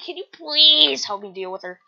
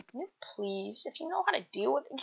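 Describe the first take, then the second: First: "please" stretched and louder; pleading stress on please. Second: Soft, whispered request; breath-light little plea; hushed plea. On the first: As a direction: lean hard on "please", begging. Asking for help, stronger take. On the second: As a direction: ask timidly, almost voiceless. Asking for help, first take. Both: Acted.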